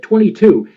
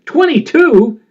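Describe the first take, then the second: First: Said in the usual way. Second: Much higher, a disbelieving question; incredulous echo. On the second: Retold or imitated. Veteran Bill hears his forecaster is only twenty-two, incredulous. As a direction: echo the number as if you can't believe it.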